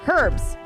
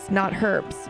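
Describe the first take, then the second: First: The word starts with an audible h sound. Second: The word starts with a vowel, no h sound. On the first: The speaker calls it right. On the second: The speaker calls it wrong.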